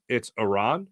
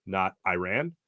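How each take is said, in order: First: "Iran" said ih-RAHN, with a long ah; corrected pronunciation. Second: "Iran" said eye-RAN, as in "I ran"; American pronunciation. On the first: Host quoting a reporter's correction, Iran said as ih-RAHN. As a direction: stretch the second syllable of "Iran" to RAHN. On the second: Host quoting the rejected version, Iran said as eye-RAN. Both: Retold or imitated. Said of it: "as one reporter so boldly called out".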